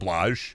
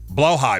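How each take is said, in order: First: It is said as one syllable, like 'blayj'. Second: It is said as two syllables, 'blow high'. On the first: The speaker calls it wrong. "Sorry, I say that wrong" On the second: The speaker calls it right. "Right, blow high"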